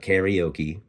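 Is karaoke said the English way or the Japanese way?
English. It is said with English-style pronunciation. The speaker calls it wrong. "We've been pronouncing that wrong"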